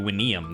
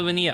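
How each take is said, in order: First: The name begins with a W sound. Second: The name begins with a V sound. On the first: "I guess it would be Winium then. Because I'm gonna go classic" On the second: "I've been calling it Vinium"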